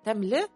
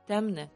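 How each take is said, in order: First: The consonant after M is a clear L. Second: The L after M is assimilated to N. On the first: This is how it is written. "пишется темле" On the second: This is how people actually say it. "Темне, да, говорят"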